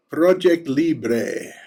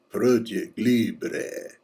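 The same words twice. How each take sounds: First: Said in the usual way. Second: Slow, lightly Spanish "Project Libre"; Spanish accent. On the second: Shown as a demonstration. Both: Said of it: "you just gotta say that with a Spanish accent".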